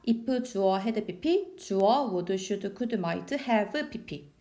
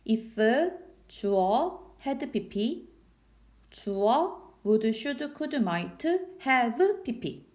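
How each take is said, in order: First: It is recited quickly. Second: It is recited slowly.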